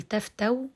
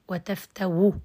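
First: تفتو closed on a w glide, no final vowel; pure sukun. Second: وتفتو ending in a brief u after the w; rawm. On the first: Teacher shows pausing by spelling, pure sukun on waw. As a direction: say تفتو as "taftaw", hamza turned into waw. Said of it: "بالسكون المحض". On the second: Teacher shows second pausing form, rawm with short final u. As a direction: say وتفتو as "wa taftawu", a trace of damma. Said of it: "الرم والإشمام". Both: Shown as a demonstration.

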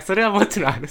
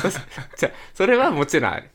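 First: 「それはもちろんある」 high and loud; 「それは」を高く強く押し出す; emphatic insistence. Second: 「それはもちろんある」 louder, more firmly; 「もちろん」を強く言い直す; emphatic insistence. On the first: (強く言い切る) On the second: (強く断言して) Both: Real, not acted.

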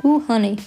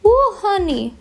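First: Said in the usual way. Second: Much higher, playful "ooh, honey"; high exclamation. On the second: Pretend. Reacting to their own messy hair, high exclamation. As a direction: pitch it way up in mock dismay.

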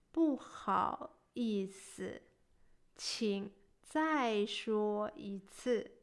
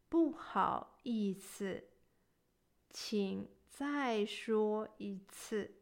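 No difference in how they are said.

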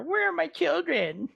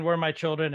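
First: Much higher, sing-song mocking echo. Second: Said in the usual way. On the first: Agnes mocking Wanda's plea for her children, high and sneering. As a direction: parrot the plea back with a cruel mocking lilt. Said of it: "Agnes starts just mocking her". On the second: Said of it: "I love how Agnes starts just mocking her".

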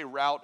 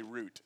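First: "route" rhyming with out; route as "rowt". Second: "route" rhyming with boot; route as "root". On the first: Preacher polls congregation on pronunciation, "route" said as rowt. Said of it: "How many of you say route". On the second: Preacher polls congregation on pronunciation, "route" said as root. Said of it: "and how many of you say route". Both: Shown as a demonstration.

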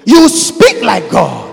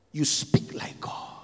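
First: Louder, slow, emphatic; slow loud proclamation; loud declaration. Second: Whispered. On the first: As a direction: proclaim it with full force. Refrain built up to loud. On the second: Repeated refrain starting in whisper. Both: Acted.

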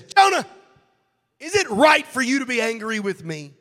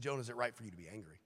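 First: God's loud, high, stern rebuke; booming accusation, voice thrown up high; angry God. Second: Soft, quick, mild question; gentle God. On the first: God angrily confronting Jonah, loud high rebuke. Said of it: "That's not what he said". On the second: God gently asking Jonah, soft quick question. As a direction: ask it softly, almost offhand. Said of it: "He said". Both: Acted.

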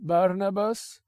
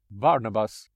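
First: High, drawn-out name with a rise; mocking master. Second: Said in the usual way. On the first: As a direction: toy with his name. [name] repeats the name.

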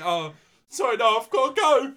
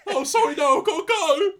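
First: High, loud Scouse excuse; Scouse accent. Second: Very high, very loud Scouse yelp; exaggerated Scouse. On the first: Retold or imitated. Actor making excuses to the little Scouser, loud Scouse. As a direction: blurt it out in Scouse as you flee. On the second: Shown as a demonstration. Actor repeating his praised line, louder exaggerated Scouse. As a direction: shriek the excuse in over-the-top Scouse. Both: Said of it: "Good Scouse".

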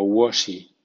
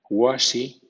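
First: Second "washy" with a rounded o, "wo-shy". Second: First "washy" with an open ah, "wah-shy". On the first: Teacher giving second option for W A words, "washy" with rounded "wo". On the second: Teacher giving first option for W A words, "washy" with open "wa". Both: Shown as a demonstration. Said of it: "suena wa o wo".

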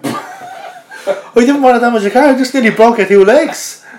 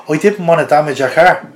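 First: Chuckling, incredulous echo of the man's excuse; laughing disbelief. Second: Said in the usual way. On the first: Retold or imitated. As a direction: repeat his words in amused disbelief. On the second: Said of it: "And he goes".

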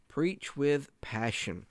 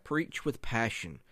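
First: "with" set apart and stressed, very slow; emphatic repeat. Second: Said in the usual way. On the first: Real, not acted. Preacher drives the point home to fellow preachers, slow and emphatic. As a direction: lean on "with", drawing out each word higher.

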